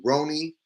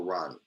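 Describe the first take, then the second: First: "Roni" said ROH-nee, long O; pronunciation check. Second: "Ronnie" said RAH-nee, open short O; lower, softer "Ronnie" with an ah vowel; pronunciation check. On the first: Streamer wanting the name right, long-O "Roni". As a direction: round the first vowel of "Roni" to oh. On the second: Streamer wanting the name right, short-O "Ronnie". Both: Shown as a demonstration. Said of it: "I wanna say it right".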